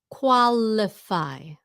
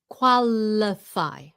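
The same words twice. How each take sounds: No difference in how they are said.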